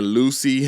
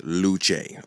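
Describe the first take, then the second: First: The name ends with an 'ee' sound. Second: The name does not end with 'ee'. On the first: The speaker calls it wrong. "I was saying Lucy, and I was like, it's not Lucy" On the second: The speaker calls it right. "That's all I wanted to know"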